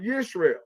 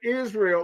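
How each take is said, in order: First: The word begins with a 'y' sound. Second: The word begins with an 'i' vowel sound. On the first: The speaker calls it right. "It was Yisrael" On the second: The speaker calls it wrong. "There is no I in Hebrew"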